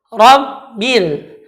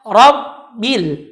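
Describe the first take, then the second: Both takes have the same delivery.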